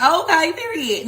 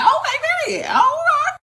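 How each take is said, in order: First: Mild approval. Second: Shouted very high, laughing; delighted shout. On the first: Retold or imitated. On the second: Real, not acted. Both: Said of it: "And I was like".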